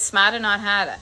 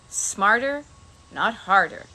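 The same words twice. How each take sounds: First: It is said in a Boston accent. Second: It is said in the speaker's plain accent.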